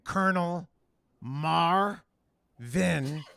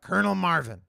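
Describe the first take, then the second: First: The name is said deliberately, with emphasis. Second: The name is tossed off casually, without emphasis. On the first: The speaker calls it wrong. "But don't say it like that" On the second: The speaker calls it right. "You just got to be like Colonel Marvin. ... just throw it away"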